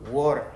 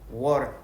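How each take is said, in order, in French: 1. La consonne du milieu ressemble à un d. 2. La consonne du milieu ressemble à un d.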